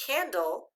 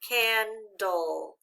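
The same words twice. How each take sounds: First: Said in the usual way. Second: "Candle" slowly in two parts, can-dull; measured "Candle", each syllable distinct; syllable-by-syllable reading. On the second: Shown as a demonstration. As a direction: sound out "Candle" with both syllables stretched.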